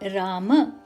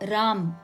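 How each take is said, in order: First: The word ends with a final vowel sound. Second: The final vowel is dropped, ending on m.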